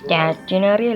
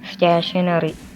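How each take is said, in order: First: The middle syllable sounds like 'tin'. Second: The middle syllable sounds like 'shun'. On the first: The speaker calls it wrong. "അല്ല" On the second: The speaker calls it right. "എന്ന് പറയുന്ന"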